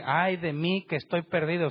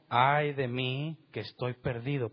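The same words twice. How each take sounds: First: Higher and louder, "Ay" cried out; loud lament. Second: Slowly, weighing each word of ay de mí; slow lament. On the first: Preacher repeating Isaiah's cry to the church, raised and louder. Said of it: "Y él dice". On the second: Preacher quoting Isaiah's cry to the congregation, slow and grave. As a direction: let "Ay" hang, slow and grave, then fall. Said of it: "¿Qué fue lo que dijo?". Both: Shown as a demonstration.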